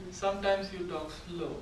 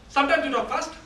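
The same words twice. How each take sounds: First: Slower, soft and lower demo line. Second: Quick, higher-pitched demo line; fast. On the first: Trainer showing the class pace, slow. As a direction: draw it out softly. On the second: Trainer showing the class pace, fast. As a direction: rattle it off quickly. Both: Shown as a demonstration.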